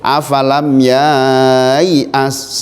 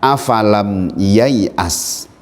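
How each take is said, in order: First: The vowel after 'ya' is drawn out long. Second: The vowel after 'ya' is kept short. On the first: The speaker calls it wrong. "nggak boleh afalam yai'as, salah" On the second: The speaker calls it right. "dibaca pendek"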